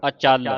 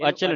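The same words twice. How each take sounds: First: ਅਚਲ with light a and firm, weighted chall; tightened pronunciation. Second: Quick ਅਚਲ with short, slack syllables; misreading demo. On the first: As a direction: press the second syllable of ਅਚਲ. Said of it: "ਕੱਸ ਕੇ ਬੋਲਣੇ ਨੇ". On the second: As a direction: rush ਅਚਲ without weight on chal. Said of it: "ਇਹਨੂੰ ਅਚਲ ਨਹੀਂ ਪੜ੍ਹਨਾ". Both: Shown as a demonstration.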